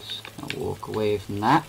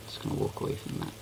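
First: Said in the usual way. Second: Whispered aside. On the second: Shown as a demonstration. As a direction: breathe it out under your breath. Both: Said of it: "repeats it aloud".

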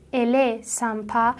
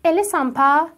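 First: "ال سامپا." slowly, as a statement; statement tune. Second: "ال سامپا؟" as a question, rising at the end; questioning tune. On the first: Teacher showing the declarative sentence, "ال سامپا." said as a statement. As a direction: state "ال سامپا." without a questioning lift. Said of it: "همون جملهٔ خبری". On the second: Teacher showing learners how to ask, "ال سامپا؟" with questioning rise. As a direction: turn the statement "ال سامپا؟" into a question by tune alone. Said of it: "لحنتو سوالی بکن". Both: Shown as a demonstration.

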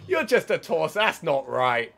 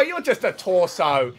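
First: Loud high quick shout; shouting in disbelief. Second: Loud high slow shout; shouting in disbelief. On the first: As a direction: yell it again, half laughing at it. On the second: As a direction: yell it, stretched out in disbelief. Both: Real, not acted. Shouting at a legless enemy.

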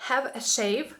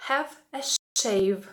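First: Said in the usual way. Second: Slow model phrase. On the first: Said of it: "repeated model". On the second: Shown as a demonstration. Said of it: "teacher models phrase".

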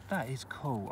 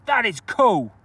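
First: Quiet cool. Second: Excited cool. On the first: Repeated cool, softer second take. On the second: Repeated cool, loud then soft. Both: Real, not acted.

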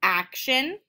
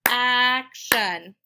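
First: Said in the usual way. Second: "action" in two louder, separated beats; syllable by syllable. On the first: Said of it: "finding out how many syllables". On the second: Shown as a demonstration. Teacher clapping two syllables, "action" split up. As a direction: split "action" as ac, shun with a gap. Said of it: "I clapped two times".

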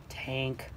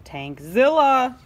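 First: Much softer, low; whisper-like reveal; quiet ominous name; hushed. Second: Louder, slow monster name; slow dramatic roar; dramatic boom. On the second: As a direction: announce the monster. Loud reveal. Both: A narrator's reading.

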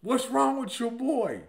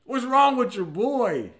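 First: Slow, indignant replay of the question; puzzled friend. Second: Slow, raised, baffled question; puzzled friend. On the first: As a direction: savor the insult, slowly. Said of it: "He said that about me". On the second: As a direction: drag it out, bewildered. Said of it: "He said". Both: Retold or imitated.

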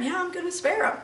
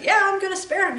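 First: God's words repeated softer; quiet repeat of God's words; softer echo. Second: Voicing God granting mercy; lightly voiced God agreeing; God's voice. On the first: Retold or imitated. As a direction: let it fall away, softer. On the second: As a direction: speak as God, decided. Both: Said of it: "And God said".

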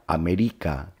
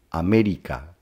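First: América said with the stress moved to "ri", as "ameRIca"; misplaced stress. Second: América with the force on the syllable "mé"; stress on ME. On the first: Teacher showing América without its written accent, stressed on "ri". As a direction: stress the second-last syllable of América, "ameRIca". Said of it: "si la palabra América no tuviera un acento". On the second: Teacher showing students where América takes its force, stress on "mé". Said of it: "la sílaba que lleva más fuerza al pronunciar". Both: Shown as a demonstration.

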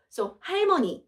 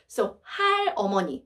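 First: 할머니 said higher and clear as the right form; correct form. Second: 할어머니 said fast as the wrong form. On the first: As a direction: lift 할머니 as the corrected word. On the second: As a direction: run 할어머니 together quickly, the form to drop. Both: Shown as a demonstration. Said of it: "but we delete all".

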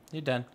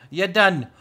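First: Said in the usual way. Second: Loud, higher burst of triumph; excited shout. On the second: Real, not acted. Finishing the build with a loud triumphant shout. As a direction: shout it out proudly.

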